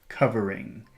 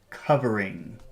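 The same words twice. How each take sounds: Both takes have the same delivery.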